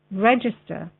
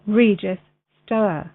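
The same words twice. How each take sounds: First: Said in the usual way. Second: "register" drawn out slowly as "REE-jis ... STOER"; split-up pronunciation. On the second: Real, not acted. Word repeated, split as "regis-stoer.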